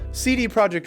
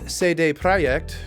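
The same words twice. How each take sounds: First: The name is pronounced the English way. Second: The name is pronounced the Polish way.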